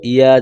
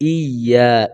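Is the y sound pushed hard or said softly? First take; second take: soft; pushed hard. First: The y sound is said softly, without force. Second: The y sound is pushed out forcefully. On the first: The speaker calls it wrong. "ইয়া যেন না হয়" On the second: The speaker calls it right. "এটা ধাক্কা দিয়ে বলবো"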